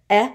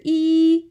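First: "E" as a brief eh, as in best; short E sound. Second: "E" as a high, held ee; long E sound. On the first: Teacher setting up a listening game, "E" as short eh. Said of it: "give me short hands". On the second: Teacher setting up a listening game, "E" as long ee. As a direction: hold the vowel "E" long and high. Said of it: "If you hear E". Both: Shown as a demonstration.

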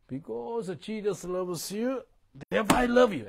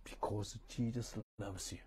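First: A ringing, full-voiced declaration; fervent preaching. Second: Said in the usual way. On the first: Shown as a demonstration. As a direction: proclaim it like a street preacher. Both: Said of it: "I speak like this".

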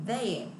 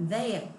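Both takes have the same delivery.

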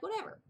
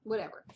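First: High rising whatever; airy, high whatever; mock dismissive. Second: Said in the usual way. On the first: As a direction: toss it off dismissively. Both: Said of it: "So I'm like".

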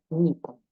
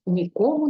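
First: НІкому, weight on the opening НІ; stress on first syllable. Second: НіКОму, weight on the middle КО; stress on second syllable. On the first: Teacher giving an example of impossibility, НІкому stressed on first syllable. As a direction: stress нікому at the start, letting it fall away. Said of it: "ми ставимо наголос на першому складі". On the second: Teacher quoting an example of absence, ніКОму stressed on second syllable. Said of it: "то ми наголос переносимо на другий склад". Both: Shown as a demonstration.

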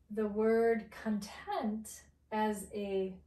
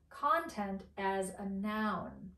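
First: Content with the stress on TENT, con short; stress on second syllable. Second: Content with the stress on CON, tent light; stress on first syllable. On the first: Teacher to learners: the adjective, stress on TENT. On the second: Teacher to learners: the noun, stress on CON. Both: Shown as a demonstration. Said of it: "pronounced a little bit differently".

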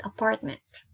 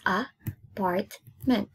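First: Said in the usual way. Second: APARTMENT slowly split into a, part, ment; syllable by syllable. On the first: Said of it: "but in English". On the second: Shown as a demonstration. Teacher counting three syllables for pupils, syllable by syllable. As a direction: break "apartment" into three slow beats. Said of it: "So three syllables".

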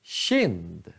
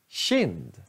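First: Kind with the k said as a tje sound; soft k in kind. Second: Kind said again with a tje sound; soft k in kind. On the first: (kind med tje-ljud) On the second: (kind igen med tje-ljud) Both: Shown as a demonstration. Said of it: "K I".

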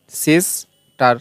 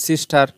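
First: সিস্টার very slow, as সিস, pause, টার; split into syllables. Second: Said in the usual way. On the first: Shown as a demonstration. Teacher showing which part comes first, সিস্টার slowly split in two. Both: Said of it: "আগে উচ্চারণ করছি কি সিস".

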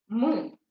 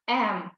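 First: "М" as a bare consonant sound; speech sound М. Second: "М" pronounced "ем", slowly; letter name М. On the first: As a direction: sound out "М" alone, without saying "ем". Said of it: "звук М". («М» як окремий звук) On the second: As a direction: give "М" its letter name, a long "ем". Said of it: "Буква". («М» протяжно як буква «ем») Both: Shown as a demonstration.

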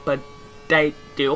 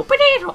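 First: "potato" stretched very slow and falling, in a mock accent; drawn-out potato. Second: "potato" squeaked very high and loud in a mock accent; squeaky potato. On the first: Joking about his accent, drawling "potato" slowly. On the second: Joking about his accent, squealing "potato" high and loud. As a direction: yelp "potato" in a sudden high falsetto. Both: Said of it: "offended by my accent".

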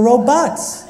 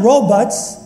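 First: Robots as ro-BAHTS; robots, open vowel in the second syllable; nephew's correction. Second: Robots as RO-buts, the rejected way; robots, reduced second syllable, drawn out; quoted correction. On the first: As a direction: say robots with a full "bots" ending. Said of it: "you didn't say it exactly that way". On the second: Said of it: "And you said". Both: Retold or imitated.

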